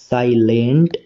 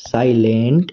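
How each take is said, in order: Both takes have the same delivery.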